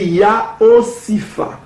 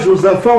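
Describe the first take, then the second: First: It begins with a Y sound, like Yaosifa. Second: It begins with a J sound, like Josaphat. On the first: The speaker calls it right. "on va prononcer Yaosifa" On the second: The speaker calls it wrong. "Ce n'est pas Josaphat"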